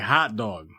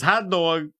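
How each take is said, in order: First: It is said in a Chicago accent. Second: It is said in a New York accent. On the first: "because Chicago, you say hot dog" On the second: "And then New York is hot dog"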